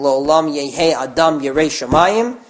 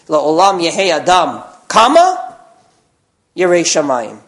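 First: It is said without a pause after Adam. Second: There is a pause after Adam.

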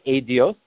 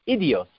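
First: The first vowel is an 'ay' sound. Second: The first vowel is an 'ee' sound. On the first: The name refers to testimony. "with a tsere" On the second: The name refers to the choicest tractate. "with a chirik"

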